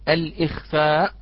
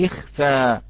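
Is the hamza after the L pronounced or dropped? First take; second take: pronounced; dropped. First: The hamza is pronounced, starting with 'al-ikh'. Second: The hamza is dropped, starting directly with 'likh'. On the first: The speaker calls it wrong. "لا نقول الإخفاء" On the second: The speaker calls it right. "نقول لخفى"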